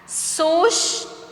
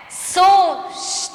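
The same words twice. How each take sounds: First: SUSTO split in two, pitched higher; syllable by syllable. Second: SUSTO with SUS long and high; stressed syllable exaggerated. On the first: Teacher reading words for pupils, syllable by syllable. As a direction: say "susto" with a gap between syllables. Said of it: "O que você percebeu ao pronunciá-las". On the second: Teacher showing pupils the stronger syllable, SUS drawn out in "Susto". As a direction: raise and stretch SUS in "Susto". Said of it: "parece ter um som mais forte". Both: Shown as a demonstration.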